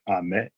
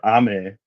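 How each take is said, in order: First: The high pitch falls on the second syllable. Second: The high pitch falls on the first syllable. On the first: It is a different word, like candy. "if you put the tonal emphasis on the me in like ame, then it's a different word" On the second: It means rain. "if you put the tonal emphasis on the ah in ame, it's rain"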